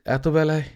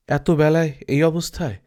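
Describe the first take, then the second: First: Said in the usual way. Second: Voiceless whisper of puzzled doubt; a hushed, puzzled whisper to himself; whispered aside. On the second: Acted. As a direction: whisper it as a private wondering. Apu's puzzled inner thought.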